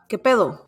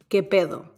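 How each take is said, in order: First: It sounds sharp and confrontational. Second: It sounds relaxed and friendly. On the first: A challenge to someone you have an issue with. "if you want to confront somebody" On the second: A casual greeting to a friend. "some things that you can say to your friends"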